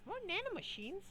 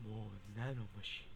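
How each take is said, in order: First: "More nanomachines?" asked in a much higher put-on voice; high squeaky "More nanomachines?"; high mock question. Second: "More nanomachines." stated in a much lower put-on voice; low, grim "More nanomachines."; low mock statement. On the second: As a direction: drop "More nanomachines." deep and flat. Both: Voicing the news item.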